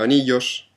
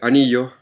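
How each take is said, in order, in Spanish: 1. Se pronuncia con acento español. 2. Se pronuncia con acento chileno. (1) "en España anillos" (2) "en Chile anillos"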